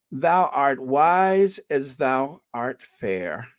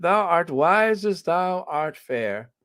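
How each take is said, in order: First: Slow, drawn-out, even reading of "Thou art wise as thou art fair"; slow first read. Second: Put-on higher, lightly theatrical old Elizabethan English on "Thou art wise as thou art fair"; mock Elizabethan English. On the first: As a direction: read it out slowly, weighing each word. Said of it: "how do they say that?". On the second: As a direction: put on a playful olde-English flourish, a touch slow. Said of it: "in that very old Elizabethan English". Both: Shown as a demonstration.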